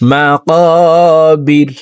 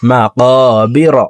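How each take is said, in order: First: The word ends on a bare r consonant. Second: The word ends with a short a vowel. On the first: "রকে ওয়াকফের ক্ষেত্রে সাকিন করে ফেলবো।" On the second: "র জবর র"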